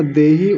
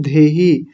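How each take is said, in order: First: देहि with a plain, unaspirated d. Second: धेहि with an aspirated dh. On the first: Teacher showing the students' mistake, देहि with unaspirated d. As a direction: say देहि with no puff on the d. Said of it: "उसके बाद भी आप देहि बोलते हैं". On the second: Teacher reading the upper word, धेहि with aspirated dh. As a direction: put a puff of air on the start of धेहि. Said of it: "ऊपर लिखा हुआ है धेहि". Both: Shown as a demonstration.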